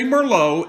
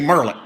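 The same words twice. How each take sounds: First: It is said the way Parisians say it. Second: It is said the way Arkansans say it. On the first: "they say Merlot in, in Paris and in Bordeaux" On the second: "here in Arkansas, sometimes we say Merlot just because we can"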